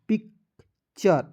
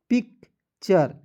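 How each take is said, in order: Both takes have the same delivery.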